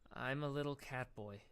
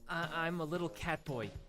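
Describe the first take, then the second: First: It is said flatly, without enthusiasm. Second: It is said with lots of enthusiasm.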